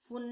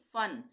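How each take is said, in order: First: The vowel is a short oo sound. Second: The vowel is a short uh sound. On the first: The speaker calls it wrong. "फुन नहीं पढ़ेंगे इसको हम" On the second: The speaker calls it right. "इसका उच्चारण अ हो जाएगा"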